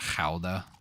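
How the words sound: It is said with a Dutch pronunciation. "people over there, I think, pronounce it Gouda"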